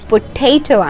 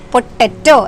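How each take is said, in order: First: The middle vowel is long, like 'ay'. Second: The middle vowel is short and flat. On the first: This is the standard pronunciation. The speaker calls it right. "ശരിയായ പ്രൊനൗൺസിയേഷൻ" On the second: This is how people there commonly say it. The speaker calls it wrong. "നമ്മൾ സാധാരണ പറയും"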